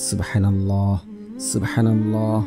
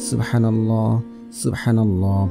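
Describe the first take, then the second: No difference in how they are said.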